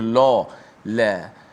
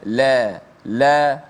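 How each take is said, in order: First: The L sound is heavy and thick. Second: The L sound is light and thin. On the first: The speaker calls it wrong. "tidak boleh la la" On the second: The speaker calls it right. "la la nipis"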